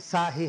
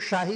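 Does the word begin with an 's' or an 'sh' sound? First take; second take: s; sh. First: The word begins with an 's' sound. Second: The word begins with an 'sh' sound. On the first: The speaker calls it right. "साही है" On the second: The speaker calls it wrong. "उसके उच्चारण में सुधार किया जाए। उनका मानना है कि वो शाही नहीं"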